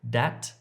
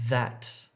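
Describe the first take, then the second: First: The word begins with a hard d sound. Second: The word begins with a soft th sound. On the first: The speaker calls it wrong. "don't say dat if you're trying to say that" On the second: The speaker calls it right. "trying to say that"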